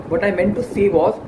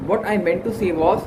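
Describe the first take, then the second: No difference in how they are said.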